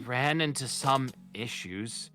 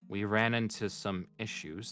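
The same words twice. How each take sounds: First: It is said in a put-on character voice. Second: It is said without the character voice. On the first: The speaker calls it right. "This is Margaret speaking" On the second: The speaker calls it wrong. "I'm doing the wrong voice"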